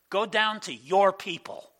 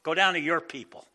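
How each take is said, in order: First: "your" pushed up and louder, pulled away from God; God disowning Israel, leaning hard on "your"; stress on your. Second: "down" leaned on, "your" lighter; God flatly sending Moses off; stress on down. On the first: God to Moses, mock-disowning the people with "your" stressed. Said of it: "they're my people, right?". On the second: God telling Moses to go to his people, "down" stressed. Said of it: "And now he's like". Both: Acted.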